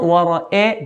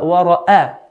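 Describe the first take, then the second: First: Wara'a ending in an e sound, wara-e; blurred fatha, wrongly. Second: Wara'a ending in a clear open a; clear fatha. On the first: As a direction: turn the last a of wara'a into eh. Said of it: "So it's not wara'a". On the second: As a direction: open the last a of wara'a fully. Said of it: "fatha makes an A sound". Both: Shown as a demonstration.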